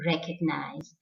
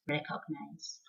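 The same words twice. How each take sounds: First: Recognize with a short 'uhg' middle; soft schwa inside recognize; correct pronunciation. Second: Recognize with a full O, 'cog'; rounded middle vowel in recognize; wrong pronunciation. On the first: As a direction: say recognize as REK-uhg-nize. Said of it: "So the correct pronunciation". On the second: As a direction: say recognize as REK-OG-nize. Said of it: "and not recognize". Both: Shown as a demonstration.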